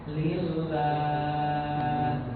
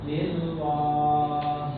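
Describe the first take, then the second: First: The L is said thin and light. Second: The L is said thick and heavy. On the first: The speaker calls it right. "Datar aja" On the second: The speaker calls it wrong. "jangan sampai ter, terbawa tebal"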